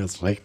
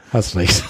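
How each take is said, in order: First: Grudging, much softer, swallowed words; a hard-to-say concession, half under the breath; reluctant admission. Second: Said in the usual way. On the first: Retold or imitated. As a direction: mumble it like it costs you. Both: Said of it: "Das fällt mir immer schwer zu sagen".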